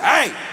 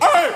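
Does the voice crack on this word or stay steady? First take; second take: steady; cracking. First: The yell is steady, without a voice crack. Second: The yell breaks with a cracking voice.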